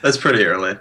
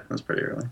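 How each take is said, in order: First: Said in the usual way. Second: Whispered echo. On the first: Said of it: "repeats the line as a whisper". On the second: Shown as a demonstration. Podcast guest whispering his own comment back to the hosts. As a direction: whisper "That's pretty early." softly without voice.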